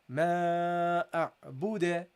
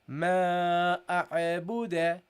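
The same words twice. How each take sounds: First: The ain is said smoothly without a bounce. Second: The ain gets an extra echoing bounce. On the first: The speaker calls it right. "ما أعبد, not أع" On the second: The speaker calls it wrong. "Don't say ما أعبد أع أع"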